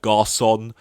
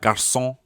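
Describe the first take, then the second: First: It is said with an English accent. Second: It is said with a French accent. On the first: "when I say it in an English accent, it just sounds weird" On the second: "I always feel silly saying it in a French accent"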